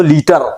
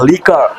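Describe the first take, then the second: First: "लीटर" said like litre of milk, wrong for liquor. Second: "लीकर" said with a k, lee-ker, not litre; right "लीकर". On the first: Teacher showing the wrong word "लीटर" for liquor. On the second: Teacher giving the right word "लीकर" for liquor. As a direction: say "लीकर" with a clear k sound. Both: Shown as a demonstration. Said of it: "लीटर नहीं बोलना".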